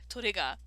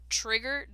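First: The name is said with Japanese pronunciation. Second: The name is said with English pronunciation. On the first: The speaker calls it right. "they sound better in Japanese" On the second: The speaker calls it wrong. "when you say it in English"

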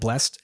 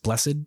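First: The word is said as one syllable. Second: The word is said as two syllables. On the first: The speaker calls it wrong. "so not blessed" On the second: The speaker calls it right. "they specify is with two syllables"

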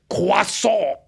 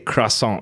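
First: The word is given a French-style pronunciation. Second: The word is given an ordinary English pronunciation. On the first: This is the proper way, which can seem pretentious. "Took me a while to say it properly" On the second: This is the everyday way people normally say it. "Just say croissant like a normal person"

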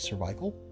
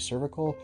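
First: It has the typical British pronunciation. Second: It has the typical American pronunciation. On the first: "Canadians and the Brits and the UK may say cervical" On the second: "Americans tend to say cervical"

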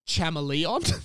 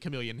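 First: The word begins with a ch sound. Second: The word begins with a k sound. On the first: The speaker calls it wrong. "he's pronouncing it as chameleon" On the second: The speaker calls it right. "because it's obviously chameleon"

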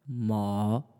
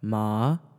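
First: The pitch dips low, then rises slightly. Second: The pitch rises from mid to high. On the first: "third tone basically just goes low and then it rises up a little bit" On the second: "Second tone"

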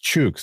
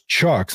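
First: The vowel sounds like the one in 'book'. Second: The vowel sounds like the one in 'chuck'. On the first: The speaker calls it right. "no, it's Chooks" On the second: The speaker calls it wrong. "a lot of people were pronouncing it as Chucks"

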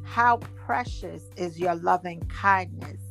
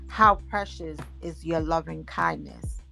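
First: It is read with excitement. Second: It is read calmly, without excitement.

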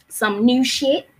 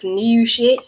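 First: It is said with a light accent. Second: It is said with a strong Baltimore accent.

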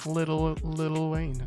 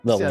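First: The first word is said in full with a T. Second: The first word is shortened with no T sound. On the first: The speaker calls it wrong. "that sounds wrong" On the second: The speaker calls it right. "just make it simple for yourself"

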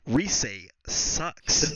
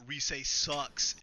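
First: It is said louder, right into the microphone. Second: It is said at a normal, softer volume.

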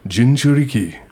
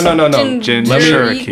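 First: It is said in a put-on samurai voice. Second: It is said in the speaker's ordinary voice.

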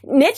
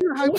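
First: The word rhymes with snitch, with a short vowel. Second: The word ends like French, with a long vowel. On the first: "Niche sounds like snitch" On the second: "niche sounds like French"

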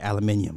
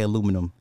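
First: It is said the British way, aluminium. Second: It is said the American way, aluminum. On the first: "I'd be like, yeah, aluminium" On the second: "I don't say aluminum"

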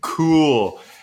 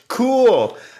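First: It sounds flat and sarcastic. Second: It sounds enthusiastic and upbeat.

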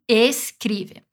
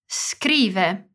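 First: An e vowel is added before the s. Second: No vowel comes before the s. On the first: The speaker calls it wrong. "nem escrive" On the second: The speaker calls it right. "que não tem uma vogal antes"

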